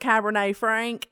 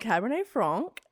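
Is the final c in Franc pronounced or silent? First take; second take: pronounced; silent. First: Franc ends with a clear k sound. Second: Franc ends without a k sound. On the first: The speaker calls it wrong. "I was going to get on here and probably be like" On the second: The speaker calls it right. "in French, the C would be silent"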